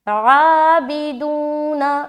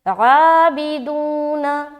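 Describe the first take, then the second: No difference in how they are said.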